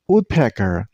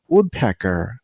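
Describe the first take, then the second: First: The stress is on the first syllable. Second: The stress is on the first syllable.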